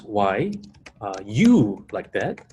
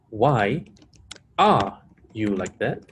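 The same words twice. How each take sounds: First: Slow question with the weight on YOU, rising at the end; stress on YOU. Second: ARE drawn out and leaned on, after a pause; slow question with the weight on ARE, rising at the end; stress on ARE. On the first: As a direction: punch and stretch the word YOU. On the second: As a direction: hold the word ARE, then lift at "that". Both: Shown as a demonstration. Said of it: "the way we place emphasis".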